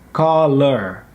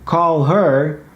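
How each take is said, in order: First: The h in her is dropped. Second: The h in her is pronounced. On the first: "can become uh, caller" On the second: "call her can be"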